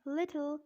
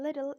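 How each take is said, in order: First: British "Little" with a crisp T; British-accent demo of Little. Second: American "little" with a flapped T; American-accent demo of little. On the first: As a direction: say Little the British way, T fully sounded. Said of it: "in British accent". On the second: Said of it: "in American accent". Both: Shown as a demonstration.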